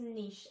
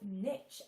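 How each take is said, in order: First: It is said with a British pronunciation. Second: It is said with an American pronunciation. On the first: "here in the U K is how we pronounce it" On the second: "If you are in the U S, uh, then uh, you may have heard it called niche as well"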